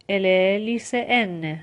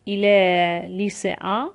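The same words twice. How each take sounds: First: 'lycéenne' with the n fully sounded, slowly; slow model, clear n closing 'lycéenne'; full final n. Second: 'lycéen' ending in a nasal vowel, no n, slowly; slow model, nasal end on 'lycéen'. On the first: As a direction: finish 'lycéenne' on a long released n. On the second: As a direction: let the last vowel of 'lycéen' go into the nose. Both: Shown as a demonstration.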